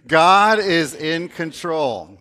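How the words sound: It is said forcefully, with strong conviction.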